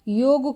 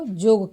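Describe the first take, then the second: First: The word begins with a 'y' sound. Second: The word begins with a 'j' sound. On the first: The speaker calls it right. "योग को जोग कहना" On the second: The speaker calls it wrong. "योग को जोग कहना"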